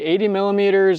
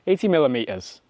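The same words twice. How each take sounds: First: It is said in an American accent. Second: It is said in a British accent.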